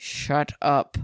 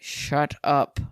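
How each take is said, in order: First: It is hissed through clenched teeth. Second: The same.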